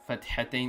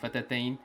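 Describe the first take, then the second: First: An h sound follows the t. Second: No h sound follows the t. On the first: The speaker calls it right. "the pronunciation for this word fathatain is correct" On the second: The speaker calls it wrong. "They're not saying fatatain"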